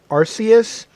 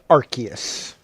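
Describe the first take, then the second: First: The first syllable sounds like the word 'arse'. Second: The first syllable does not sound like 'arse'. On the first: This is the original pronunciation. "originally it was pronounced Arceus, but then they found out uh, too late that arse means something" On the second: This is the newer encouraged pronunciation. "so now apparently they encourage calling it Arceus"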